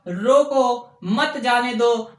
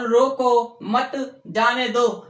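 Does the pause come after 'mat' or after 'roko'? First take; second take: after roko; after mat. First: There is a pause after 'roko'. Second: There is a pause after 'mat'.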